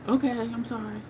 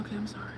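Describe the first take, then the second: First: Said in the usual way. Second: Soft whispered sorry; whispered apology. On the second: Retold or imitated. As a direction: barely breathe the apology.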